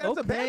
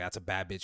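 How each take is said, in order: First: It is said in an excited, hyping-up way. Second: It is said in a plain, objectifying way. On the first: The person is being praised and celebrated. The speaker calls it right. "You know you gotta like hype them up like okay okay" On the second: The person is being reduced to an object. The speaker calls it wrong. "You can't just be like like you know objectify like"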